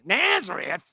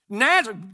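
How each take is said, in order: First: It is said in a snide, scornful tone. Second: It is said in a plain, neutral tone.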